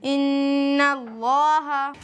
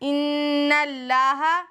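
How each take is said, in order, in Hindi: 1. Allah में L भारी और मोटा है। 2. Allah में L हल्का और पतला है। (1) "सही अदायगी है" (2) "नहीं पढ़ेंगे"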